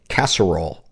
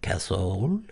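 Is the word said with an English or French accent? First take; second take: English; French. First: The word is said in a plain English accent. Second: The word is said in a French accent.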